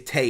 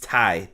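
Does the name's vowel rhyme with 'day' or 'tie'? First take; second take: day; tie. First: The vowel rhymes with 'day'. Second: The vowel rhymes with 'tie'. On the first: The speaker calls it wrong. "I shouldn't say Tay" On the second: The speaker calls it right. "it's Ty. Ty Conti is how they kept pronouncing it"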